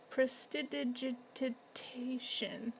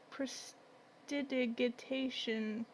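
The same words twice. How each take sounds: First: Prestidigitation whispered slowly with a soft G as in gem. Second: Prestidigitation said slowly with a hard G as in go. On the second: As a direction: sound out Prestidigitation syllable by syllable, hard G. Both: Shown as a demonstration. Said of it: "Maybe it's a soft G sound".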